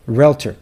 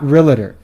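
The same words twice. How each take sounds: First: It has two syllables, with no vowel before T. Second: It has three syllables, with a vowel before T. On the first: The speaker calls it right. "Do you see an A between the L and the T? No" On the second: The speaker calls it wrong. "you've been pronouncing it wrong this whole time"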